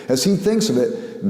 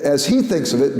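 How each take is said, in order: First: Thinks pressed a little harder than he; stress on thinks. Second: He pressed a little harder than thinks; stress on he. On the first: Lecturer rephrasing Lewis's view, lightly stressing thinks. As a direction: lean on the word thinks, let he fall away. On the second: Lecturer rephrasing Lewis's view, lightly stressing he. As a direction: lean on the word he, as in Lewis's own view. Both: Shown as a demonstration.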